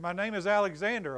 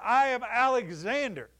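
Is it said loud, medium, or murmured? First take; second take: medium; loud. First: It is said a little louder. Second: It is declared loudly and firmly.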